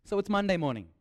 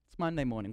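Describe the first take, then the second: First: Said in the usual way. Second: Weary Monday groan. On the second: Shown as a demonstration. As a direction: lower and softer, worn-out sigh of a Monday.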